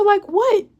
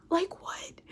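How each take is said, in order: First: High-pitched challenge. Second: Same question, almost voiceless; whispered question. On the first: Woman questions sister about brother's claim, high challenge. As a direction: voice jumps up on the question. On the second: Woman questions sister about brother's claim, whispered. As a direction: let the voice fall away to a whisper. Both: Retold or imitated.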